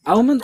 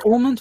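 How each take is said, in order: First: "almond" as AL-mund, higher pitched; variant pronunciation. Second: "almond" as AW-mund, pitched high; own pronunciation. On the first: Host questioning contestants' answer, variant pronunciation. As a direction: say "almond" with a short a as in "pal". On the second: Host comparing it with the contestants' way, own pronunciation. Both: Shown as a demonstration. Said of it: "differing on the actual pronunciation".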